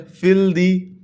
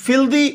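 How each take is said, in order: First: filthy broken as फिल, दी; split into syllables. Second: Said in the usual way. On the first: Shown as a demonstration. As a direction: say filthy slowly in two beats: फिल... दी. (Filthy को दो हिस्सों में: फिल... दी) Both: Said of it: "ये भी टू syllable word है".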